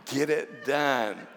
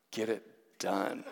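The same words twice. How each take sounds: First: Drawn out and laughing; slow emphatic order. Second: Low, laughing command; firm order. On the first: Retelling girlfriend's order slowly, emphatic and laughing. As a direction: spell it out word by word. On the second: Girlfriend urging him before leaving, low firm laughing order. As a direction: push him to act now. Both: Retold or imitated. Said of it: "she just looks at me and she goes".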